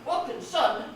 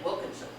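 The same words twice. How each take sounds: First: The last two syllables are fully pronounced. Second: The last two syllables are swallowed and reduced. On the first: The speaker calls it wrong. "I would not say Wilkinson" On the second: The speaker calls it right. "I would swallow those last two syllables"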